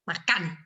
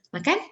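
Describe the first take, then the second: First: Said sharply, like an angry command. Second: Said as a plain, inviting question. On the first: Eat, now, as an angry order. "kayak kita marah gitu" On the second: Asks whether the listener wants to eat. "Itu with question, "Do you want to eat?""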